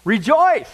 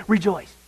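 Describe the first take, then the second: First: Loud high ringing Rejoice; proclaiming. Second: Said in the usual way. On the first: Shown as a demonstration. Preacher proclaiming Paul's word to the church, loud. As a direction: call it out like a herald. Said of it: "What does Paul say?". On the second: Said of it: "I'll say it again".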